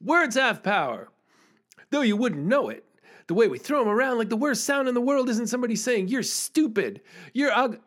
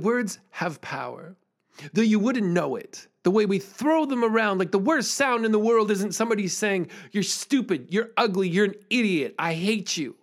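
First: Energetic slam recital; emphatic slam delivery. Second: Emphatic slam rhythm building on "You're stupid, you're ugly"; punchy slam performance; emphatic slam delivery. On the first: Retold or imitated. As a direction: perform it full out to the assembly. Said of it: "so I'm like". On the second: Shown as a demonstration. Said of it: "in as kind of emphatic a way as I can".

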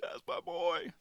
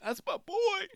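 First: Tony, softer repeat. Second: High cracking voice of a proud dad; a hint of a proud father choking up; imitating Tony's voice catching. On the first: Retold or imitated. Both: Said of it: "you could hear it in his voice, kinda crackled".

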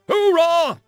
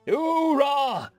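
First: Hoorah yelled much higher and louder; rallying war cry. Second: Hoorah shouted without enthusiasm; a dutiful, unenthusiastic troop reply; half-hearted hoorah. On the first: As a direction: belt out the battle cry. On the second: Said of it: "a bit lacking in enthusiasm". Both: A narrator's reading.

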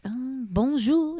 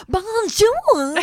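First: Slow French bonjour; French waiter. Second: High, precious bonjour; a child showing off her French; prissy little girl. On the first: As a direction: greet like a Paris waiter. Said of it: "The waiter was like". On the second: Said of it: "she's like". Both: Retold or imitated.

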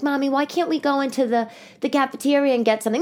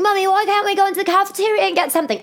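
First: Higher-pitched child imitation, milder take; pleading daughter. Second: Put-on very high, fast child voice; whining daughter. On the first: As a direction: lightly imitate a child asking mom. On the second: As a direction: exaggerate a nagging little girl's plea. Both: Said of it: "my daughter's like".

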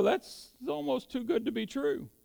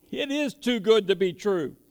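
First: Higher, lightly voiced disbelief; doubting inner thought. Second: Firm emphasis on "is"; stress on IS. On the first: Preacher voices believers' unspoken doubt about the Bible, mildly incredulous. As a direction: voice a private doubt, pitched up. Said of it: "we may not really think it out loud". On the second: Real, not acted. Preacher answers the doubters, affirming with a stressed "is". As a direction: land hard on "is" to confirm it, then fall away.

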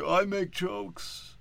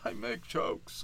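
First: Slow, higher, drawn-out mock voice; I make jokes stretched out slowly and pitched up; mock unfunny comic. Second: Slow, breathless whispered repeat; I make jokes whispered slowly and much softer; mock whisper. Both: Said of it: "I don't need to see".

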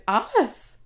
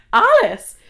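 First: Retold stunned query, rising at the end; disbelieving question. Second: Loud, high cry of disbelief, falling at the end; outraged repeat. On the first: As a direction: echo the name as a disbelieving question. Retells hearing the wrong name. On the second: Retold or imitated. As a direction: throw the name out in outrage. Repeats the wrong name in outrage.

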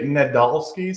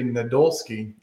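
First: Nadolsky with an "ah" middle, ne-DAHL-skee; pronunciation variant. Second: Nadolsky with an "oh" middle, na-DOLE-skee; pronunciation variant. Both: Shown as a demonstration. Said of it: "Some people say".

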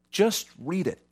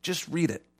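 First: "Just read it" pushed higher, slow and deliberate; slow insistent challenge; emphatic urging. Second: "Just read it" dropped much softer, almost under the breath; quiet insistent echo; soft repeat. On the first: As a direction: lean on it like a firm challenge. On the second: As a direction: let the challenge sink in softly. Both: Shown as a demonstration. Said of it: "repeated urging".

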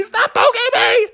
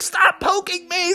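First: Very high whining plea; whiny cub. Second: High, soft, laughing plea; a cub half-laughing while pecked; giggly whiny cub. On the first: Bubby begs the woodpecker again, whining higher. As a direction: whine at full height. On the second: Bubby begs the woodpecker, half laughing. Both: Acted.

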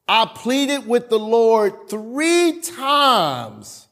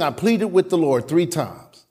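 First: Stretched out very slowly, high, leaning on three; slow dramatic reading. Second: Said in the usual way. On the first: Acted. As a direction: draw every word out for weight.

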